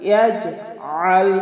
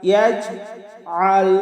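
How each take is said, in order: The two takes are said the same way.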